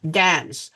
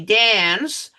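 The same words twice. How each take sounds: First: The vowel is said as a short A. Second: The vowel is said as a long A. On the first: The speaker calls it right. "Instead, it is A. So you dance, dance" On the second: The speaker calls it wrong. "You do not say dance, but because of the N, that hinders the A from being long A"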